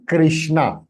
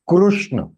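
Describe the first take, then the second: First: The first syllable sounds like kri. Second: The first syllable sounds like kru. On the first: The speaker calls it wrong. "it is not Krishna" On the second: The speaker calls it right. "Krishna is the right pronunciation"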